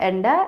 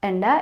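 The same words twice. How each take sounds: Both takes have the same delivery.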